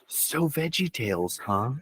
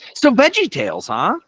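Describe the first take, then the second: First: It is said quietly, at a calmer volume. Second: It is said loudly, almost yelled.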